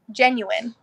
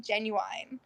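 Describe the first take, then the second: First: Genuine said JEN-yoo-in, ending in a short -in; corrected pronunciation. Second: Genuine said JEN-yoo-wine, ending rhymed with wine; drawn-out Southern genuine, last part like wine; Southern mispronunciation. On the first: Shown as a demonstration. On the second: Retold or imitated. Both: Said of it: "I didn't know for the longest time I was saying it wrong".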